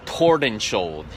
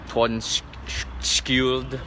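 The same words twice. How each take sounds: First: Tordenskjold in an American English accent. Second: Tordenskjold tried slowly in a non-English pronunciation; tentative native pronunciation. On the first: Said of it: "accent, an American English accent". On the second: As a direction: sound out Tordenskjold slowly, unsure of the Scandinavian sounds. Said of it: "I think it's, um". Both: Shown as a demonstration.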